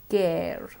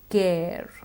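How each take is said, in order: Both takes have the same delivery.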